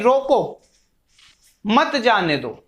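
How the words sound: There is a pause after 'roko'.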